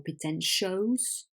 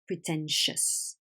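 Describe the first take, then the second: First: The final syllable has a full, clear vowel. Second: The final syllable has a weak, reduced vowel. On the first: The speaker calls it wrong. "It's not dangerous or pretentious" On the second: The speaker calls it right. "it's dangerous, pretentious"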